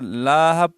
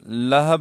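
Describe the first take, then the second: First: The first vowel is drawn out long. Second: Both vowels are short. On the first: The speaker calls it wrong. "अक्सर लाहब पढ़ते हैं" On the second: The speaker calls it right. "और लहब है"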